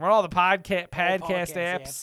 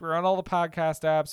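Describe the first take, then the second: First: It is said in a put-on accent. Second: It is said in the speaker's natural voice.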